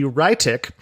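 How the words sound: The name is said with a German pronunciation.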